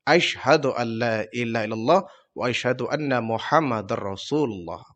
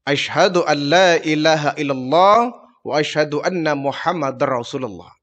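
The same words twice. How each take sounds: First: Lower, softer, quicker echo of the shahada that fades out; new convert repeating the creed. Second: Calm, half-whispered recitation of the shahada; Prophet reciting the creed. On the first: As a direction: repeat it after the Prophet, hushed and fading. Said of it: "Dihya Al-Kalbi pun mengucapkan dua kalimat syahadat". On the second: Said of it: "Kau harus mengucapkan dua kalimat syahadat". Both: Acted.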